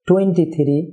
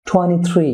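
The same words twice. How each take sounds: First: "twenty" fully sounded and weighted, "three" unstressed; "twenty three" said the common learner's way, front-stressed; ordinary learner's stress. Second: "three" long and weighted after a quick "twenty"; "twenty three" with a stretched final "three"; stress on second number. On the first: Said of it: "আমরা যেভাবে সাধারণভাবে বলে থাকি". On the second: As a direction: rush through "twenty" and lean on "three". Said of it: "দ্বিতীয় সংখ্যাটিতে". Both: Shown as a demonstration.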